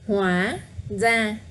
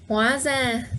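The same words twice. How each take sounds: First: The phrase is said slowly and carefully. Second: The phrase is said quickly, stressing hóa.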